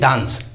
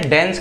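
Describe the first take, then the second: First: It is said in a British accent. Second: It is said in an American accent. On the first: "British accent में" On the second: "American accent में"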